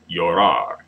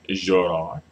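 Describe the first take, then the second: First: The double L sounds like a y. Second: The double L sounds like a zh. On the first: This is the usual standard pronunciation. "the double L can be pronounced with a y sound" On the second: Some speakers pronounce it this way. "the J sound, you can say, you may hear some people say Zorar"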